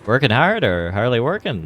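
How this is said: It is said in a put-on impression voice.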